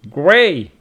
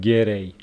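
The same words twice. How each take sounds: First: The g and r are said together. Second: An extra vowel separates the g and r. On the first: The speaker calls it right. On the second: The speaker calls it wrong. "not gray"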